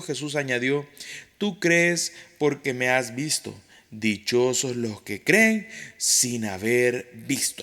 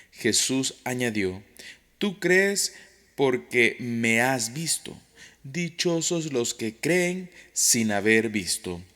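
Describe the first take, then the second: Both takes have the same delivery.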